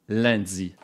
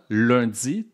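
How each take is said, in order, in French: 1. La première voyelle sonne comme un 'in' nasal. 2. La première voyelle est un 'un' nasal bien distinct. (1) "tandis qu'en France, on le prononce" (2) "lundi se prononce au Québec comme ça"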